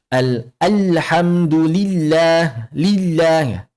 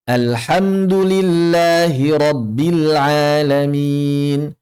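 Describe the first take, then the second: First: "alhamdulillah" with heavy, pressed l's; wrong thick l. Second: Slow chanted recitation, long held vowels; sung, Quran recitation. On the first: Teacher showing what to avoid, thick-l "alhamdulillah". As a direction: recite "lillah" slowly with a thick, dark l. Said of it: "Jangan dibaca". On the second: Teacher modelling the verse, slow chanted recitation. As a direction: chant it slowly with a thin, light l. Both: Shown as a demonstration.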